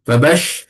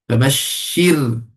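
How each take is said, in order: First: "fabash-" with a heavy, full-mouthed ba and a broad vowel; common mistake. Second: "fabashshir" slow, light and thin, with a doubled shin and a thin ra; correct form. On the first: Teacher imitating how people wrongly say "fabash-", with a heavy ba. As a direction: say "fabash-" wrongly, thick and rounded. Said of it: "kadang-kadang orang sebut". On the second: Teacher giving the correct slow "fabashshir" after the mistake. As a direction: say "fabashshir" slowly, with the ra kept thin. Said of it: "No, fabash". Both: Shown as a demonstration.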